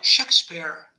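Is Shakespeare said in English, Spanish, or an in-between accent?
English. The name is said with full English sounds. It sounds pretentious. "ahí también queda mal, queda esperante"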